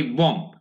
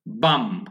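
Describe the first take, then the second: First: বম with a rounded o vowel; common mispronunciation. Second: বাম with an open "a" and silent final b; lower, falling বাম, open vowel, ending on m; open-vowel pronunciation. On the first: Teacher quoting how many people say it, common mispronunciation. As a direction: say বম with "o", as many learners do. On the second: Teacher showing how it should be pronounced, open-vowel pronunciation. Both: Shown as a demonstration. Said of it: "বম না হয়ে এই উচ্চারণটা হবে".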